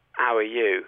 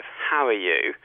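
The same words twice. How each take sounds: First: How said as 'ow, no h at the start; Cockney 'ow are you; H dropped. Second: How with a clear breathy h at the start; careful RP How; H sounded. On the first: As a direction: drop the h in How. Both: Shown as a demonstration. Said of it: "instead of".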